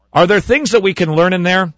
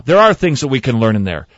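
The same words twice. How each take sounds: First: Raised, questioning "Are there things"; posed question. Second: Firm stress on "are", then falling; emphatic affirmation. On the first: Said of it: "I want to repeat this". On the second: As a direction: answer your own question, leaning on "are". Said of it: "Well, yeah". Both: Shown as a demonstration.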